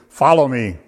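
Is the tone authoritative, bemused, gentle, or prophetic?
authoritative. It is said in a commanding, authoritative tone. It is a command to be obeyed. "Now that can be authoritative"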